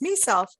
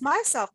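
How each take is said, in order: First: The first syllable sounds like 'me'. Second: The first syllable sounds like 'my'. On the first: The speaker calls it wrong. "but it's me self" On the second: The speaker calls it right. "but it's myself"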